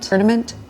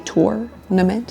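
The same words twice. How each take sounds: First: The first syllable does not sound like tour. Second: The first syllable sounds like the word tour. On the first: This is how the speaker always said it. The speaker calls it wrong. "My whole life I've said tournament" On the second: This is how tennis people say it; it sounds East Coast. The speaker calls it right. "Tour, like you say tournament"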